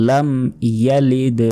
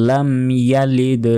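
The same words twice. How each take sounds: Both takes have the same delivery.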